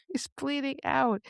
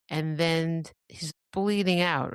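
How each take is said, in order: First: Horrified emphasis. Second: Said in the usual way. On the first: Shown as a demonstration. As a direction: repeat it in a high, hushed, horrified voice.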